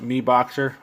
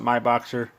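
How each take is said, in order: First: The first syllable sounds like 'me'. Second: The first syllable sounds like 'my'. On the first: Other people say it this way. "some pronounce it MeBoxer" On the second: The speaker says it this way. "I pronounce it MyBoxer"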